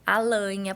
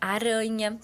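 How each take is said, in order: First: The r is replaced by an l sound. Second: The r is a clear tapped r sound. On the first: "ela faz a troca do som, que geralmente é pelo L" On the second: "o som do R vibrante"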